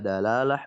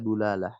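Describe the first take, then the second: First: The first syllable has an a vowel. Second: The first syllable has a u vowel. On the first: "bisa dalalah" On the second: "bisa dulalah"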